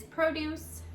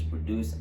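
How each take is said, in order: First: PROduce with a full long O; stress on first syllable. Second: ProDUCE, short weak first syllable; stress on second syllable. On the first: Teacher introducing the noun, stress on PRO in produce. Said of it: "the stress will falls on the first syllable". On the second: Teacher showing the verb's pronunciation, stress on DUCE in produce. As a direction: put the weight on DUCE in produce. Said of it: "the stress falls in the second syllable". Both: Shown as a demonstration.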